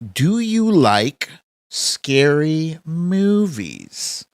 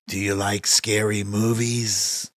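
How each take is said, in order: First: It is said in the speaker's normal voice. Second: It is said in the Scream killer's put-on voice.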